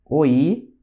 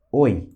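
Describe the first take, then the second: First: "Oi" with the i stretched; long Russian I. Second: "oi" as one short syllable; short Russian I. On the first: Teacher demonstrating for students, long I drawn out. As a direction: hold the i of "Oi". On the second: Teacher demonstrating for students, short I clipped. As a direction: clip the i of "oi". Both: Shown as a demonstration. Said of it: "olha só a diferença".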